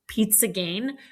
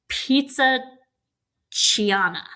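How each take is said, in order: First: The second word is said as one syllable, 'gain'. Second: The second word is said in three syllables, 'kee-ah-na'. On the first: This is how the family says it. "that's how they say it" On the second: This is how the spelling reads. "the way that it's spelled is like"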